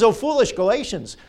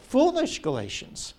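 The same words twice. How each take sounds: First: Said in the usual way. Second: Foolish lifted high, then falling away; stress on foolish. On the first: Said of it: "He says". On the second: Shown as a demonstration. Preacher repeating Paul's rebuke to the congregation, foolish stressed high. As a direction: lean hard on Foolish and let the line fall. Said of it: "Oh, what?".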